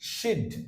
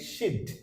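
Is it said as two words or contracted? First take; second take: contracted; contracted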